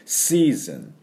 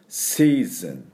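First: The s sound hisses through the front teeth. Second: The same.

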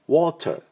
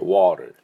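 First: British accent, with the t clearly pronounced. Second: American accent, with the t softened. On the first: "イギリス式だったら" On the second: "アメリカ式は"

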